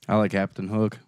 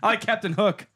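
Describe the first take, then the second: First: The words are mumbled and unclear. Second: The words are said clearly and distinctly.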